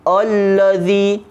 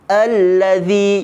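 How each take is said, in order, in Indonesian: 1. Vokal di awal itu tebal dan berat. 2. Vokal di awal itu tipis dan ringan.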